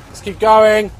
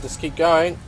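First: Raised, higher sing-out; louder, higher repeat to rally; rallying call. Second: Said in the usual way. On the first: Real, not acted. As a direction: call it out to spur yourself on.

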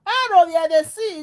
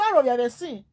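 First: Higher and louder repeat of the complaint; louder mock complaint. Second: Said in the usual way. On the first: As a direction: raise it, half shouting the plea.

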